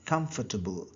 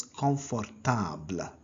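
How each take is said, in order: First: Said in the usual way. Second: "confortable" as kon-for-TAHBL, nasal first vowel; French "confortable", every syllable sounded, open ah at the end; French pronunciation. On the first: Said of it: "is pronounced as confortable". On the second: Shown as a demonstration. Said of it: "is pronounced as".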